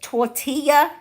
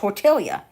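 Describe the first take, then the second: First: The double L sounds like a Y. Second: The double L sounds like an L. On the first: "I can say it tortilla" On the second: "So I call it tortilla"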